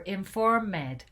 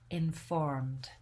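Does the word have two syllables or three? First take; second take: three; two. First: The ending is said as an extra syllable. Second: The ending is only a final d sound. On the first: The speaker calls it wrong. "we don't say" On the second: The speaker calls it right. "we're not going to add a syllable to those words"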